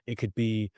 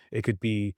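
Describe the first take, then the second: No difference in how they are said.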